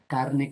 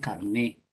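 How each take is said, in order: First: The stress is on the first syllable. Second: The stress is on the second syllable. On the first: "carne es diferente de carné" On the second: "Carné, tarjeta de identificación personal"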